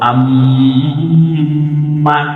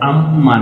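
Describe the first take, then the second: First: The nasal sound is held for a while. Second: The nasal sound is short, not held. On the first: The speaker calls it right. "বলবো আম্মা" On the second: The speaker calls it wrong. "আম্মা না বলে"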